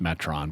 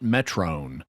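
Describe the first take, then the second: First: The final syllable has a short o vowel. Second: The final syllable has a long o vowel. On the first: "it would be pronounced Metron, because that's an Omicron, not an Omega" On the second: "everyone pronounces it Metrone"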